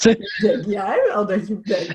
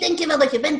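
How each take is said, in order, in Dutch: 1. Het wordt uitgesproken met een sensuele, verleidelijke stem. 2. Het wordt uitgesproken met een kwakende tekenfilmeendstem. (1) "dan doe je dat zinnetje met je meest sexy stem" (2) "Ik denk aan een stripfiguur die ik geinig vind, Donald Duck"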